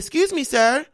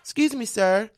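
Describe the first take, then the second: First: It is said louder and more firmly. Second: It is said softly and quietly.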